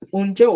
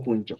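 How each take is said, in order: First: "Unchau" raised, ending on AU. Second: "puncho" low and soft, ending on O. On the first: Teacher giving first valid option, "Unchau" with AU. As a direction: lift "Unchau" and keep the full AU glide. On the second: Teacher giving second valid option, "puncho" low. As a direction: drop "puncho" down, closing on a plain O. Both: Shown as a demonstration. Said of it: "Cualquiera de los dos es válida".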